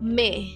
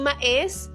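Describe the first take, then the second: First: It is said with one syllable, me. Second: It is said with two syllables, ma-es. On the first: The speaker calls it right. "ang basa pala dyan is me" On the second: The speaker calls it wrong. "Hindi ma-es"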